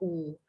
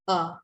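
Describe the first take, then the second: First: The vowel is a long 'oo' sound. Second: The vowel is a short 'uh' sound. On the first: This is how the letter is said in Malay. "in Malay we we pronounce this as u" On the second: This is the English phonics sound of the letter. "in English we we learn the phonics"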